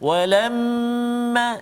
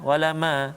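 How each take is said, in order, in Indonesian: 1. M ganda ditahan dengan dengung sengau. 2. M ganda diucapkan cepat tanpa dengung sengau.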